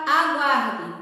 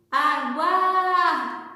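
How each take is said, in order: First: Said in the usual way. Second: Stretched, sung-out call of the word. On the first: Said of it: "Com a palavra aguarde". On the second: Shown as a demonstration. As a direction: call it to someone far ahead, drawing out the stressed syllable. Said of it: "você vai gritar, chamar aquela palavra". (chamando de longe, sílaba alongada)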